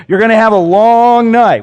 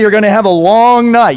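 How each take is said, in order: First: Loud, high threat from a coach; coach's warning. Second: Loud, high and fast coach threat; coach's warning. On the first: Coach warning a lineman about a long night, loud and high. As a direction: growl it like a coach threatening his player. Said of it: "that's usually how they say it". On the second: Coach threatening his lineman, loud fast warning. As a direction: snap it out like an angry coach. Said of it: "I'm gonna tell you". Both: Retold or imitated.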